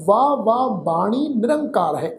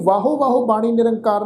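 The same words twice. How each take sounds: First: ਵਾਹ ਵਾਹ as drawn-out "vaa vaa"; long ਵਾਹ, one syllable each time; correct pronunciation. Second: ਵਾਹੋ ਵਾਹੋ with a sounded o, fast; quick ਵਾਹੋ, two syllables each time; wrong pronunciation. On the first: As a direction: recite ਵਾਹ ਵਾਹ deliberately, final u silent. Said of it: "ਵਾਹੋ ਵਾਹੋ ਬਾਣੀ ਨਿਰੰਕਾਰ ਨਹੀਂ ਪੜ੍ਹਨਾ". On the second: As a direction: rattle off ਵਾਹੋ ਵਾਹੋ as "vaa-ho vaa-ho". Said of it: "ਨਹੀਂ ਪੜ੍ਹਨਾ". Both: Shown as a demonstration.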